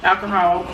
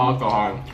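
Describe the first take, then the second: First: "Alcohol" said plainly, the American way; saying alcohol. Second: "Alcohol" said a little lower; saying alcohol. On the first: Asked to say alcohol for the camera, plainly. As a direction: say "Alcohol" as she always does. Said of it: "Say alcohol". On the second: Echoing her word alcohol, his way. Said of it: "You say aqua". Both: Shown as a demonstration.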